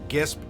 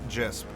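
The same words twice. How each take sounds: First: The word begins with a hard G sound. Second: The word begins with a soft G sound. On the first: The speaker calls it right. "hard G" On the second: The speaker calls it wrong.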